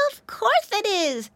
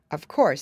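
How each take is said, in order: First: Put-on much higher, childlike piglet; little piggy voice. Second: Said in the usual way. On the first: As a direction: say it like a sure little pig. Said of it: "said Floppy".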